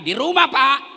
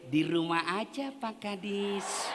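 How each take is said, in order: First: It is said in a firm, businesslike voice. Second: It is said in a soft, sultry, drawn-out voice.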